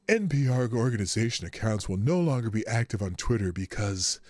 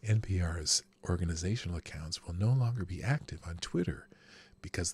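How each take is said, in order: First: It is read in the speaker's ordinary voice. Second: It is read in a put-on public-radio announcer voice.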